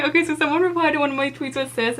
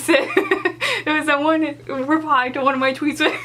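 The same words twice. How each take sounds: First: Said in the usual way. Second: Giggling through the words; laughing while retelling; words broken up by giggles. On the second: Real, not acted. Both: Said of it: "I don't even know why this was funny".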